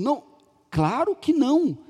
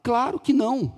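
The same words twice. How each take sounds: First: "claro que não" said slower, each word weighted; father repeats "Não, claro que não" slowly, leaning on every word; slower emphatic repeat. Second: Said in the usual way. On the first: Retold or imitated. Father asked again, repeats "claro que não" slowly and firmly. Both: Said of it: "Pergunta de novo".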